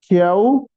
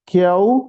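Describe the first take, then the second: The two takes are said the same way.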